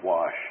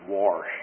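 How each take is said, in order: First: "wash" said plainly with no r; standard wash. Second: "wash" said as "warsh" with an r; West Texas wash. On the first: Preacher correcting himself after the West Texas "warsh". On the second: Preacher joking about how West Texans say the word, with an r. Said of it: "As I say in West Texas". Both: Shown as a demonstration.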